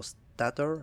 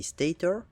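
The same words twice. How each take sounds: First: "stator" with a short A, STAT-or; alternative pronunciation. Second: "stator" with a long A, STAY-ter; first pronunciation guess. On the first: Player unsure of the word, "stator" said STAT-or. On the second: Player showing the factory's product, "stator" said STAY-tor. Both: Shown as a demonstration. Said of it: "not sure how you pronounce it".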